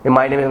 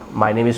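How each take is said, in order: First: It is rattled off quickly like a memorized line. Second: It is spoken slowly, calmly and warmly. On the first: The answer was memorized by rote. The speaker calls it wrong. "ये नहीं guys आपने रटा हुआ है" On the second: The speaker is confident and at ease. The speaker calls it right. "बड़े प्यार से आराम से बोलेंगे"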